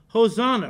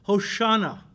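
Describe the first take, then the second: First: The middle consonant is a plain 's' sound. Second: The middle consonant is an 'sh' sound.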